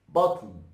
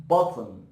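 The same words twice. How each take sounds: No difference in how they are said.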